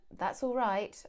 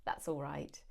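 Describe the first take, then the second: First: Warm. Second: Low, soft "That's all right." said without care; grudging. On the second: Thanked for a station pickup, low and grudging. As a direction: mumble it like you didn't want to bother. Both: Shown as a demonstration. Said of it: "My tone of voice is telling you everything".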